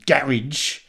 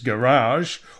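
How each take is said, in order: First: It is pronounced with a British accent. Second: It is pronounced with an American accent.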